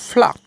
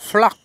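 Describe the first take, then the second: No difference in how they are said.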